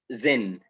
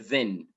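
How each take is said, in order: First: Then starts with a z or d sound. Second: Then starts with a th sound. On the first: This is how most Egyptians say it. "We say" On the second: This is not how most Egyptians say it. "we don't even say the or then"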